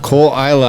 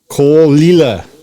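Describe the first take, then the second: First: The second word is said as eye-la. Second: The second word is said as lee-la. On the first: The speaker calls it wrong. "I totally mispronounced that" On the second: The speaker calls it right.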